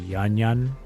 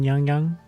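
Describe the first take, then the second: First: Each syllable ends with an 'n' sound. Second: Each syllable ends with an 'ng' sound. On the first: "It just says like yan yan" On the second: "they're not pronouncing the G in yang yang"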